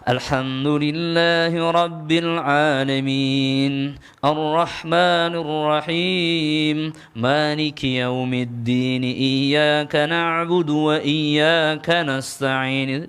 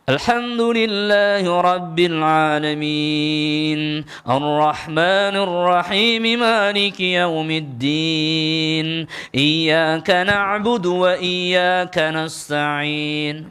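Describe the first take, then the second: First: It is recited in an ordinary, plain way. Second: It is recited with more force and pressure.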